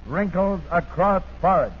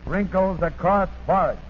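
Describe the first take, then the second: No difference in how they are said.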